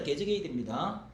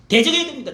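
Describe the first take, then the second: First: Said in the usual way. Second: Loud proclamation. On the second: Real, not acted. Repeated proclamation.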